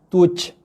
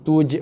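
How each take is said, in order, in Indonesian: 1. Huruf j terakhir berakhir dengan hembusan nafas. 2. Huruf j terakhir berakhir dengan lepasan pantulan yang singkat. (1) "itu bunyi hembusan nafas" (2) "Qalqalahnya j"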